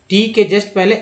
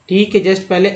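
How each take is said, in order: The two takes are said the same way.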